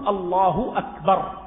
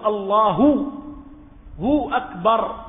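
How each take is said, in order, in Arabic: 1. تنتهي الكلمة الأولى بضمة قصيرة. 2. يُضاف صوت الواو بعد الكلمة الأولى. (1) "يكفي ضم ها لفظ الجلالة بدون أن تأتي بالواو" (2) "بضم لفظ الجلالة... وبعضهم قال هذا تكلف"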